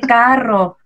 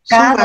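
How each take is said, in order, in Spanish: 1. La consonante del medio es una r vibrante. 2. La consonante del medio es un sonido d. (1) "se dice carro" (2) "no se dice cado"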